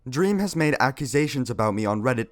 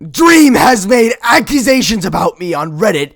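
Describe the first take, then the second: First: It is read in a natural, ordinary voice. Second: It is read in a strained, put-on comic voice.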